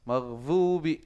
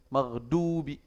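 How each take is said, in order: First: The middle consonant is pronounced as z. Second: The middle consonant is pronounced as d. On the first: "pakai jadi zai" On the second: "jadi d"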